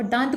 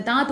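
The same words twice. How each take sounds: First: दांत with a full nasal n, "daant"; heavy nasal dant. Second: दांत with only a light nasal vowel, no full n; light nasal daant. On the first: Teacher demonstrates the wrong, heavily nasal दांत. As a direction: push दांत through the nose with a full n before t. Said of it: "नाक का भरपूर उच्चारण करेंगे". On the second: Teacher demonstrates the correct, lightly nasal दांत. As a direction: say दांत mostly through the mouth, barely nasal. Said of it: "हल्का सा उच्चारण करते हैं". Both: Shown as a demonstration.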